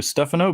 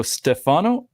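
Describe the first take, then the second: First: "Stefano" run straight through, no lift on FA; "Stefano" in one level run, STEF-a-no. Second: "Stefano" stressed in the middle, ste-FA-no; Canadian take on "Stefano", leaning on FA; Canadian pronunciation. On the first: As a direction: say "Stefano" evenly without going up in the middle. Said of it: "like to go straight through". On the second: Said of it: "as a Canadian, I would probably wanna go". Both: Shown as a demonstration.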